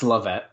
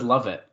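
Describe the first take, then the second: First: The name is said as 'Levette'. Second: The name is said as 'love it'. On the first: This is how the hosts usually say it. The speaker calls it wrong. "We say his name wrong" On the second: This is how everyone else says it. The speaker calls it right. "Everyone says love it"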